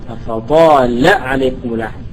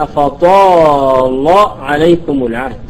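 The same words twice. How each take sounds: First: The lam in أفطال said thin and light, tarqeeq. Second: The lam in أفطال said thick and full-mouthed, tafkheem; heavy lam. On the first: Teacher showing the alternative light reading. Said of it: "فروى بعضهم الترقيق". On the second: Teacher demonstrating Warsh's heavy lam for students. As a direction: darken the lam of أفطال after the emphatic ta. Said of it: "على التفخيم". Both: Shown as a demonstration.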